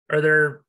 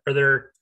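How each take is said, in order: Both takes have the same delivery.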